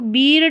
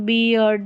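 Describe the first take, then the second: First: The vowel is one plain long 'ee' sound. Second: The vowel glides from 'ee' into 'uh'. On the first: The speaker calls it wrong. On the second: The speaker calls it right.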